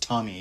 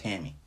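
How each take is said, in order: First: The first vowel sounds like the o in top. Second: The first vowel sounds like the a in cat. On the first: The speaker calls it right. "It's Tommy Abraham. That's how they pronounce it in England" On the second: The speaker calls it wrong. "it's not Tammy"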